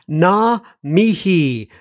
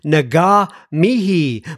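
First: No hard g sound is heard in the first word. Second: A hard g sound is heard in the first word. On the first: The speaker calls it right. "apparently the G is silent" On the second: The speaker calls it wrong. "I think I've been pronouncing it Naga Mihi"

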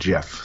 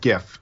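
First: The word begins with a soft G sound. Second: The word begins with a hard G sound. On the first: The speaker calls it wrong. "Nick would kill me if I said GIF" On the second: The speaker calls it right. "It's the right way to say it"

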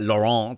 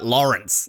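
First: The name is said with a French accent. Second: The name is said with an Australian accent. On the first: "put like the French twang on it and be like Laurence" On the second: "I just say like Laurence"

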